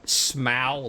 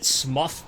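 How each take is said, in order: First: The name rhymes with bow. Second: The name rhymes with rough. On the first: "like a bow" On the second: "because he's rough"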